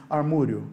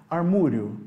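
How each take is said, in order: No difference in how they are said.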